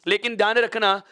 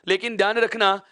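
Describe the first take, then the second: Both takes have the same delivery.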